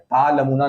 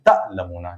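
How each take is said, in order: First: The first vowel is long with no catch. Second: The first syllable ends in a slight catch. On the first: The speaker calls it wrong. "ता लमूना नहीं" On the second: The speaker calls it right. "हल्का झटका दिया जाता है"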